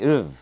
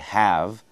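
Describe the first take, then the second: First: The word is reduced to a weak uv. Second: The word is said in its full form. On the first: "in rapid speech, we contract it. we say uv" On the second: "We always say have"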